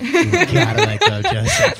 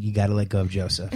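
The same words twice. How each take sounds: First: Much higher and louder, sing-song and laughing; a hammed-up laughing call to Mom; high, loud, laughing plea. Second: Said in the usual way. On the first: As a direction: belt it to Mom through laughter. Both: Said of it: "Mom, Mom, if you're listening".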